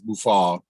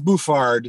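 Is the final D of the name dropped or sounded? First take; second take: dropped; sounded. First: The final D sound is dropped. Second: The final D sound is pronounced.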